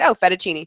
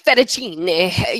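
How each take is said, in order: First: Said in the usual way. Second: Slow, drawn-out Italian "Fettuccine", every syllable rolled; mock chef pronouncing "Fettuccine" the Italian way; Italian accent. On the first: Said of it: "things that you think that it's like". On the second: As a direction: lightly mimic a TV chef's Italian "Fettuccine". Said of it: "she's like".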